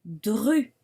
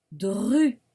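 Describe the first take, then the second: First: Dru said louder and clearly; dictation syllable. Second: Dru repeated louder and clearly; repeated dictation. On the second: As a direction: say dru once more for the class. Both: Shown as a demonstration. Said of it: "On continue".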